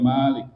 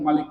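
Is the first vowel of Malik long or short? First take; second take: long; short. First: The first vowel is long. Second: The first vowel is short. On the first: The speaker calls it wrong. "nggak boleh" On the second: The speaker calls it right. "mesti pendek"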